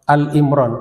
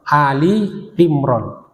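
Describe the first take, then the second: First: The name starts with the short syllable 'Al'. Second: The name starts with the two syllables 'A-li'. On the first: The speaker calls it wrong. "bukan Al-Imran ya, masih ada sering salah sebut" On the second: The speaker calls it right. "Ali Imran, keluarga Imran"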